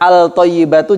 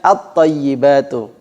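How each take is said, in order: First: The L is clearly pronounced before the T. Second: The L merges into a doubled T. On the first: The speaker calls it wrong. "dibaca al-thayyibatu juga salah" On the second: The speaker calls it right.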